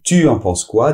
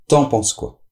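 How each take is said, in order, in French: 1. Le mot tu se prononce en entier. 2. Le mot tu est réduit et lié.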